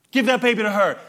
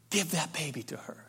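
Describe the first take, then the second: First: Loud, higher pleading cry; mother crying out. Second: Softer, calm echo of the plea; quiet king's verdict. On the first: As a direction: cry out the plea to spare him. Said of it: "the true mother cries out". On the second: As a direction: Solomon softly repeats the mother's words. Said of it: "Solomon says". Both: Retold or imitated.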